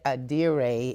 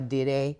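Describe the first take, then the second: First: The word is said with English pronunciation. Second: The word is said with Yoruba pronunciation. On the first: "is like the English pronunciation" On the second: "is the Yoruba pronunciation"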